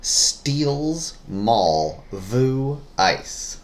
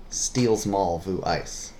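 First: Very slow "Steals... mall... vu... ice", each word apart; drawn-out, higher, every word separately stressed; word-by-word clue reading. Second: Slow "Steals mall vu ice", run together in one phrase; joined-up clue repeat. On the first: Reading a puzzle clue to a guessing partner, very slowly word by word. Reads scrambled phrase word by word. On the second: Repeating the puzzle clue for a guessing partner, words joined up. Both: Shown as a demonstration.

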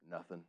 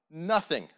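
First: Very soft, low, understated answer; quiet acted reply. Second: Loud, punched one-word answer; emphatic answer. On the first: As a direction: drop it low and quiet, like a film hero. Acting Wallace's quiet film reply. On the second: Retold or imitated. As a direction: drive the word home to the congregation. Repeats film reply as emphatic point.

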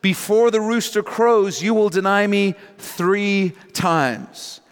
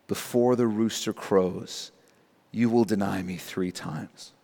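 First: High-pitched, deliberate pronouncement; emphatic prediction. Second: Low, soft, solemn quote; grave recollection. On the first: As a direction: declare it firmly, slowing at the end. Jesus's solemn prediction, first reading. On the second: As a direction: recall the prophecy quietly and heavily. Peter remembers the prediction, grave reading. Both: Retold or imitated.

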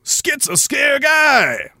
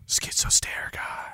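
First: Slow, high shouted name, mocking. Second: Slow unvoiced whisper of the name. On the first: Reading a username, mock shout. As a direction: bellow the silly name slowly. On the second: Correcting the username in a whisper.

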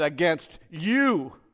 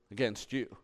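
First: Loud, raised, drawn out on "you"; impassioned cry. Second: Said in the usual way. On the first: Acted. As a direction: cry out "you" long and strong to God. Psalm cried out to God.

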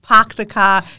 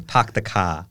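First: Louder pahk the kah, no R; R-less park and car, punched; dropping the r. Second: Park the car as pahk the kah; R dropped in park and car; dropping the r. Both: Shown as a demonstration. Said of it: "dropping the R's".

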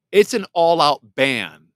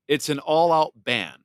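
First: "It's an all-out ban" said louder, hammering "all-out"; forceful, final statement; emphatic declaration. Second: Said in the usual way. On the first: Real, not acted. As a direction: punch "all-out" hard and loud.

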